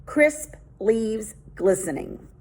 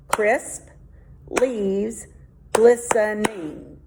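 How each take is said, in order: First: Said in the usual way. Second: "Crisp leaves glistening" split with a pause after each word; syllable by syllable. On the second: Shown as a demonstration. Teacher checking the syllables of the haiku line by line. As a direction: count out "Crisp leaves glistening" one piece at a time. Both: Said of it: "let's test out their haiku".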